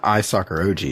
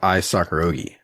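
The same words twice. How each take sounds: First: The ending sounds like the letters O-G. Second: The ending rhymes with the name Miyagi. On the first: The speaker calls it wrong. "we're saying it wrong. It's not" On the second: The speaker calls it right.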